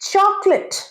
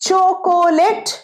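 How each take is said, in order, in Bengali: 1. এটি দুই শব্দাংশে উচ্চারিত হয়: choc-late। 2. এটি তিন শব্দাংশে উচ্চারিত হয়: cho-co-late। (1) "কোটা উচ্চারণ হয় না" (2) "আমাকে একটা চকোলেট কিনে দাও, এরকম বলো।"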